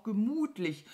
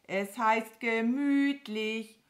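First: "gemütlich" said as "gemuhtlich"; cow's "muh" slipped into "gemütlich"; mispronounced word. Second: "gemütlich" drawn out slowly with a clear ü; over-articulated "gemütlich" with proper ü; correcting pronunciation. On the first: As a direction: say "gemütlich" with a moo-like u for the ü. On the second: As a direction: correct "gemütlich" high, loud and slow. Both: Acted.

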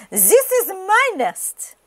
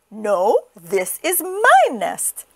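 First: High, slow duck voice; indignant duck. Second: Indignant chicken. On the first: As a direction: stake a claim, high and drawn out. Duck claims the nest. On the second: Chicken disputes the duck's claim. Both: A narrator's reading.

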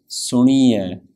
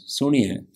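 First: Suniye with the ni stretched into a long ee; elongated E. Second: Suniye with a very short clipped i. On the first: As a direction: drag out the E in Suniye, the wrong way. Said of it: "They elongate the E sound". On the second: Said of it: "This is a very short E sound". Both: Shown as a demonstration.

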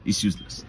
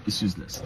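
First: Said in the usual way. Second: Whispered under his breath; whispered repeat. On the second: Real, not acted. Vlogger giving up on the governor's office, whispered. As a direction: let it die away into a whisper.

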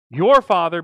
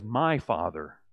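First: "Your" hit hard and loud; stress on your. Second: "My" stressed, low and soft. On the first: Preacher contrasting Mary's words, loud stress on "Your". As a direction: punch "Your" to set it against "My". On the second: Preacher giving Jesus' answer, low soft stress on "My". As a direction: lean on "My", dropping low and quiet. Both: Shown as a demonstration. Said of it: "That's the contrast here".

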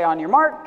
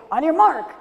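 First: Said in the usual way. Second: High, loud starting call; race starter call. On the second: Acted. Rabbit starts the race to Turtle, high loud call.

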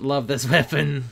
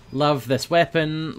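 First: Laughing through the word weapon. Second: Drawn-out praise. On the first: Gamer repeating praise for his weapon, laughing. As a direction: giggle as you repeat it. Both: Shown as a demonstration.

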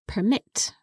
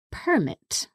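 First: Permit stressed on MIT, perMIT; verb stress. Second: Permit stressed on PER, PERmit; noun stress. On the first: Teacher showing permit as a verb. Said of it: "that would be pronounced permit". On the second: Teacher showing permit as a noun. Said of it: "that would be pronounced". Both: Shown as a demonstration.

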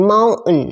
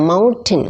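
First: "mountain" in American style, T dropped before the N; American "mountain" without its T; silent T. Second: Said in the usual way. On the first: Shown as a demonstration. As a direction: say "mountain" as "mow-un", with no T sound. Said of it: "ในสำเนียงอเมริกัน ตัว T มักจะไม่ออกเสียง". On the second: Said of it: "mountain เขาจะออกเป็น mountain".

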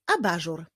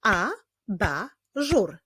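First: Said in the usual way. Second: "Abażur" slowly as A, ba, żur; syllable by syllable. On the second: Shown as a demonstration. Teacher leading clapping practice, "Abażur" in three slow beats. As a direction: pause after each syllable of "Abażur". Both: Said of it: "Teraz wyklaszczmy wyraz abażur".

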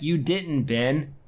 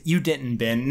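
First: Brushing Ben off curtly; dismissive. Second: Waving off Ben a second time; a bored brush-off; dismissive. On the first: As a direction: dismiss him without a second thought. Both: Retold or imitated. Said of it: "very dismissive".

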